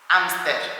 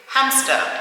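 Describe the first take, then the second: First: The word begins directly with the vowel. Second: The word begins with an audible H sound.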